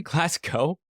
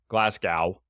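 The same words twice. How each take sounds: First: "Glasgow" ending in a long O, as a question; Glass-co Glasgow. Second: "Glasgow" ending to rhyme with cow; Glass-cow Glasgow. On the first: Shown as a demonstration. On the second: Real, not acted. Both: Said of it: "is it Glasgow?".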